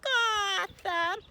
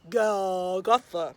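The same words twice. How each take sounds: First: It is said in a high baby voice. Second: It is said in a deep daddy voice.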